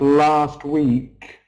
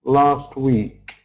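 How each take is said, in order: Both takes have the same delivery.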